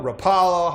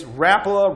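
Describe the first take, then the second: First: "Rapala" said ruh-PAH-luh, higher and louder; alternative pronunciation. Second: "Rapala" said RAP-luh, higher and louder; alternative pronunciation. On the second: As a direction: punch the first syllable of "Rapala": RAP-luh. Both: Shown as a demonstration. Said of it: "however you wanna say it".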